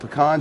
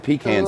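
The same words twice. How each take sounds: First: Pecans is pronounced the local, non-northern way. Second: Pecans is pronounced the way northerners say it. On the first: The speaker calls it right. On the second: The speaker calls it wrong.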